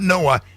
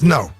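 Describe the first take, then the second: First: The word is said in a slang pronunciation. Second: The word is said in the standard pronunciation. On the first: The speaker calls it wrong. "the word is not Noah" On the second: The speaker calls it right. "It's no"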